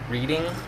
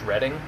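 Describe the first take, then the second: First: The name is read the way it is spelled. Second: The name is said the way locals say it. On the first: "spelled Reading" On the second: "it's pronounced Reading"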